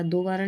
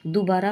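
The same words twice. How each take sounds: First: दोबारा with o in do; wrong pronunciation. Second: दोबारा said as du-baa-raa; short u at the start of दोबारा; correct pronunciation. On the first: Teacher showing the error, दोबारा starting with do. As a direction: round the first vowel of दोबारा to o. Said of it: "नहीं होता". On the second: Teacher correcting the word, दोबारा starting with du. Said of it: "होता है". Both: Shown as a demonstration.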